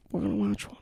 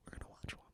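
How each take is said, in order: First: Said in the usual way. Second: Unvoiced ASMR whisper on "watch". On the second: Shown as a demonstration. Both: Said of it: "they say things three times".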